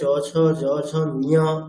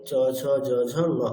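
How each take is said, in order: First: The last letter is said as a full 'niya'. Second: The last letter is a short, light nasal sound. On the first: The speaker calls it wrong. "এরকম বলবেন না" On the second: The speaker calls it right. "এইরকম উচ্চারণ করে অভ্যাস করবেন, ওটাই ভালো হবে"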